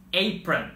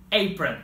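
Both takes have the same delivery.

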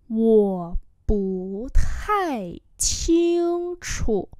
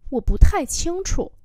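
First: Wo bu tai qing chu very drawn out; slow demonstration. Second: Said in the usual way. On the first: Shown as a demonstration. Teacher repeats a sentence for learners, very slowly. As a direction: stretch each syllable of Wo bu tai qing chu.

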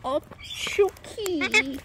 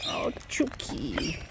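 First: Slow, drawn-out higher croon; sung, stretch the name out fondly. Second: Slow soft whisper. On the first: Owner greeting her pet bird, slow croon. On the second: Owner whispering to her pet bird. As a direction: breathe the name fondly. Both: Real, not acted.

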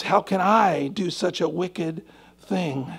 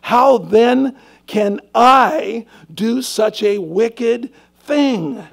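First: Slow hushed musing on the question. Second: Loud, slow, stretched-out cry of the question; slow, loud pulpit emphasis on wicked thing; emphatic preaching. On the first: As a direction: let it sink in gently. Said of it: "Oh, guys". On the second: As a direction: drive the question home to the room. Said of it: "He said". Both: Shown as a demonstration.

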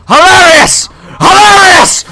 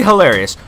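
First: High, loud sarcastic shout; exasperated full-voice yell; screaming. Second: Said in the usual way. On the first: Real, not acted. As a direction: scream it out, escalating in pitch. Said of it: "then I can scream louder".

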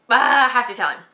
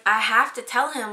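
First: Louder, higher panicked ah; realizing it in a rush of panic. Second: Said in the usual way. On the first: Retold or imitated. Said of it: "and I'm like". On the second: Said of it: "And I was like".

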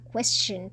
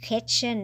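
First: "question" with a clear kw at the start; slow demonstrated "question", w glide after the k; kw cluster. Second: "question" mispronounced as "kes-chun"; wrong-example "question" with plain k; missing w. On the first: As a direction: say "question" as "kwes-chun". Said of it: "เราต้องออกเสียงควเข้าไปด้วย". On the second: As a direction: drop the w from "question". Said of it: "ไม่ใช่ question". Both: Shown as a demonstration.

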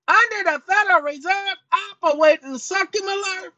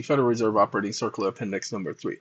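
First: "Under the Federal Reserve Operating Circular" in a much higher, mangled character voice; the alter ego stumbling through "Operating Circular", pitched way up; high sidekick voice reading "Federal Reserve"; cranky alter ego. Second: "Federal Reserve Operating Circular Appendix number three" rattled off much lower and fast; deep, fast announcer read of "Operating Circular"; deep host persona. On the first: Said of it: "sometimes he gets in my chair". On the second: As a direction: read the title quickly in a deep voice. Deep persona reads title. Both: Acted.

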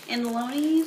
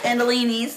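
First: "Andaloni's" with LOH in the third syllable; unsure "Andaloni's", o in place of ee; mispronounced name. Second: "Andalini's" with LEE in the third syllable; firm, loud "Andalini's", ee in place of o; corrected name. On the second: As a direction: say "Andalini's" loudly, an-da-LEE-neez. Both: Real, not acted.

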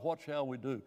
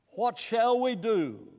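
First: Said in the usual way. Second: Slow, loud and high, begging for an answer; pleading cry. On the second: Retold or imitated. The Pentecost crowd cries out to Peter, loud and pleading.

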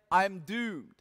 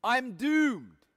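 First: Said in the usual way. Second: "I'm doomed" said higher, like a man crying out in dread; mock despair, lightly acted by the preacher; anguished cry. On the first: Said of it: "Some translators say". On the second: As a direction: mourn "doomed" as if the end has come. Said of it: "I cried out".

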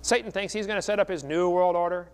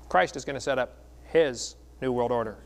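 First: Said in the usual way. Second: "his" set apart by pauses, weighty and deliberate; pause, land firmly on "his", then finish; stress on HIS. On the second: Real, not acted. Preacher setting Christ against Satan, deliberate stress on "his". Contrast with Satan's world order.

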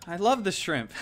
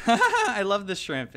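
First: Said in the usual way. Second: Slow and louder, laughing through it. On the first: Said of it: "I love the shrimp (repeated laughing)". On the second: Real, not acted. Gamer gushing about his favorite shrimp pet, laughing. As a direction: gush it with a giggle.

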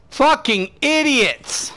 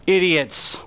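First: Slow, dragged out and higher; disgusted drawn-out curse. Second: Said in the usual way. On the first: Real, not acted. Streamer cursing his own team, slow and disgusted. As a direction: stretch each word in real contempt. Teammates failing in match.

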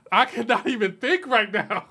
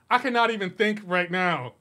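First: Laughing. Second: Said in the usual way. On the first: Real, not acted.

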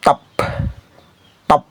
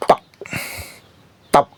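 No difference in how they are said.

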